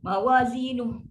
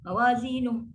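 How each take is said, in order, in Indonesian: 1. Kata ini diakhiri bunyi kasar. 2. Kata ini diakhiri bunyi kasar.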